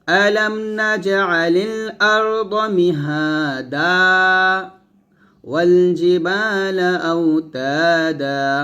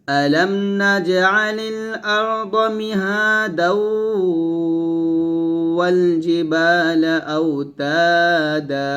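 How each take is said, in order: First: There is a stop after mihada. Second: Mihada runs into wal with nasal ghunna.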